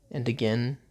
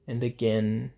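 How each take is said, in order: Both takes have the same delivery.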